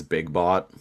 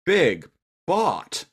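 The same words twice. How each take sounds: First: Said in the usual way. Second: "Big Bot" high and drawn out, leaning on "Big"; imitating Cheetor's weird "Big Bot". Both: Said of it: "he says it in a weird way".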